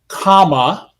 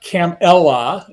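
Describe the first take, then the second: First: The name begins like the word comma. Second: The name does not begin like comma. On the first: The speaker calls it right. "a button with a comma and la" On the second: The speaker calls it wrong. "not Camella"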